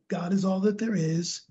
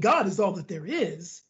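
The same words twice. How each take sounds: First: The words are said flatly, without any feeling. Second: The words are said warmly, with deep feeling. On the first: The words are recited without being felt. The speaker calls it wrong. "we can all walk around going" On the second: The words are truly felt and meant. The speaker calls it right. "Or we can say it with the emotion"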